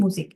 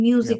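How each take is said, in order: First: The first vowel is a plain u sound. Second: The first vowel starts with a y glide. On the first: The speaker calls it right. "উচ্চারণটা কি হবে? মুজিক।" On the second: The speaker calls it wrong. "মিউজিক না, উচ্চারণটা ঠিক রাখতে হবে।"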